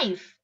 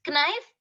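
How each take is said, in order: First: "knife" said as nife; silent K. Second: "knife" as k-nife, questioning; K sounded. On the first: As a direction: say "knife" starting on n. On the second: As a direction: say "knife" wrongly with a hard k. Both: Shown as a demonstration. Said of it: "No, it's just".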